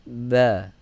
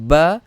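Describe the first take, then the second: First: The lips touch lightly on the b. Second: The lips press together firmly on the b. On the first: The speaker calls it right. "yang betul adalah ba, ba, ringan saja" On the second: The speaker calls it wrong. "barulah kita akan baca dengan menekan"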